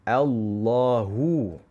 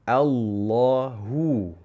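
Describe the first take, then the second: Both takes have the same delivery.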